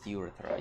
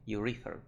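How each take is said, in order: First: The stress is not on the second syllable. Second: The stress is on the second syllable. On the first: The speaker calls it wrong. "I thought it was urethra" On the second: The speaker calls it right. "it's actually second syllable. Nhấn âm hai"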